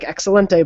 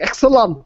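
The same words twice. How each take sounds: First: The word has a normal Spanish pronunciation. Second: The word has a deliberately mangled pronunciation. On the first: This is how the word is normally said. The speaker calls it right. "you say it like" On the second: This imitates a character who butchers Spanish. The speaker calls it wrong. "but then he's like"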